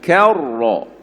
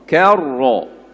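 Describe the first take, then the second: Both takes have the same delivery.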